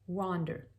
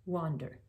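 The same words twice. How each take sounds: Both takes have the same delivery.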